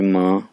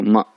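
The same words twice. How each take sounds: First: "माँ" held level and a little long; "माँ" spoken in Mandarin first tone, level and held. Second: "माँ" dropped sharply with a jolt; "माँ" in Mandarin fourth tone, a quick falling jerk. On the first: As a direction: say "माँ" flat and sustained, like a steady note. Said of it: "ये first tone पढ़ते हैं". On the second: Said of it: "झटका देते हैं". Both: Shown as a demonstration.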